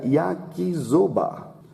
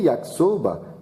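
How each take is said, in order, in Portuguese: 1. A consoante do meio é um som de z vibrante. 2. A consoante do meio é um som de s sibilante. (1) "Se nós fôssemos ler essa palavra aqui no português, seria yakisoba" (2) "Se lê yakisoba"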